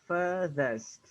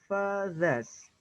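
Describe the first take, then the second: The two takes are said the same way.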